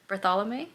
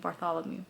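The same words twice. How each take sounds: First: The name ends on a vowel without w. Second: The name ends with a w sound. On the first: The speaker calls it right. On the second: The speaker calls it wrong.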